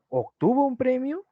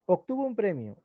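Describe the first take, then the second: First: High question tune, PREMIO rising at the end; interrogative tone. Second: Statement tune, PREMIO falling to a soft close; declarative statement. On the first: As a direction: turn it into a question, climbing on PREMIO. (tono interrogativo, más agudo, PREMIO sube) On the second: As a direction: state it quietly and let PREMIO drop. (tono enunciativo, PREMIO cae al final) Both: Shown as a demonstration. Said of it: "El tono cambia".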